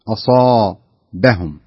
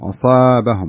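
First: The long a vowel sounds heavy and full. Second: The long a vowel sounds light and thin. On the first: The speaker calls it right. "بس الألف هنا مفخمها" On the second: The speaker calls it wrong. "ما يصلح أقول أصابهم"

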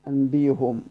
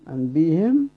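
First: The h is followed by a u vowel. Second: The h is followed by an i vowel. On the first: "والضم" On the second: "وقرأت بالكسر"

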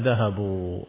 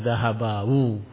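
First: The ending is said as a single u. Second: The ending is said as separate a plus wu. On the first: The speaker calls it right. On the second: The speaker calls it wrong. "Tidak bisa"

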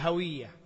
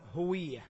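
First: The first vowel is an 'a' sound. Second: The first vowel is a 'u' sound. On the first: The speaker calls it wrong. "وبعضهم يقول هوية" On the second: The speaker calls it right. "والأصوب والله أعلم هوية"

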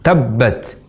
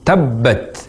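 No difference in how they are said.

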